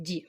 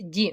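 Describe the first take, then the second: First: Ді said alone and quietly; isolated soft syllable. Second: Ді said alone with a soft д; isolated soft syllable. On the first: Teacher repeats ді for pupils. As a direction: repeat ді softly. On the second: Teacher isolates ді for pupils. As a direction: sound out ді softly and slowly. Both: Shown as a demonstration. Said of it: "ді м'який".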